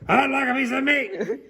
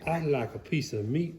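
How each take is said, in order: First: It is said very loudly. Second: It is said quietly.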